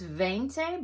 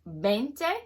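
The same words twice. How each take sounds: First: The word begins with a V sound. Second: The word begins with a B sound. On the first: The speaker calls it wrong. "the number twenty is veinte" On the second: The speaker calls it right. "it's pronounced veinte, kind of like a B at the beginning"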